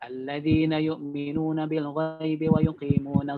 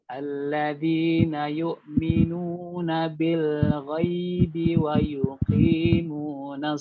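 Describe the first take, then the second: First: It is recited at a fast, steady pace. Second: It is recited at an unhurried, steady pace. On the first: "Kalau mau baca dengan tempo yang cepat, maka harus stabil" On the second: "itu jangan terburu-buru ya"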